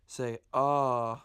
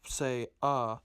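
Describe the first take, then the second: First: The vowel is said long. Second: The vowel is said short. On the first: "pronounce it longer" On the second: "If it doesn't have an accent mark"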